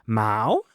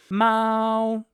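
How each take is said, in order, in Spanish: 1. El tono sube como en una pregunta. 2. El tono se mantiene alto y plano. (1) "el segundo tono es como si fuera una pregunta como ¿qué?" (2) "primer tono, es gato"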